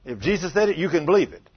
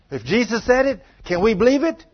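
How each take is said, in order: First: Said in the usual way. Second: Rousing challenge. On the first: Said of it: "preacher answers his own challenge". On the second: Real, not acted. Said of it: "preacher drives home the point".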